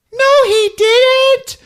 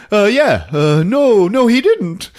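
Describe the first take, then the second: First: Very high, loud squeal of denial; protesting child. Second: High, loud, flustered backpedalling; nervous stammering. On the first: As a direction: wail it slowly like a little girl. Judy defends Ralph against David. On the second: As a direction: fumble for the answer in a raised voice. Ralph nervously stammers along. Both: Retold or imitated.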